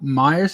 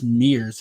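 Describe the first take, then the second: First: The name rhymes with 'fires'. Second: The name rhymes with 'fears'. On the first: The speaker calls it wrong. "it's not Myers" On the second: The speaker calls it right. "it's Mears"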